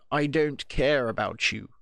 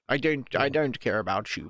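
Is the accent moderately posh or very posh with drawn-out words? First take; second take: very posh; moderately posh. First: A very posh accent with drawn-out words. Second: A moderately posh accent with normal-length words. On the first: "extend the words and slightly, and be a little posher" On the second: "It'd probably be a little posher"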